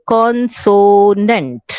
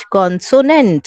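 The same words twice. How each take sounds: First: consonant slowly, as con, so, nent; teacher drawing out consonant in three parts; syllable by syllable. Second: Said in the usual way. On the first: Shown as a demonstration. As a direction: stretch each syllable of consonant. Teacher sounding out syllables before spelling them.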